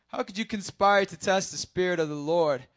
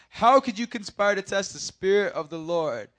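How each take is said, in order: Both takes have the same delivery.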